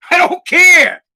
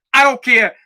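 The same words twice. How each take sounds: First: High, loud, fed-up yell; exasperated shout. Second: Said in the usual way. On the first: Real, not acted. Fed-up dad ranting after a bad day, exasperated shout. Exasperated outburst in angry rant.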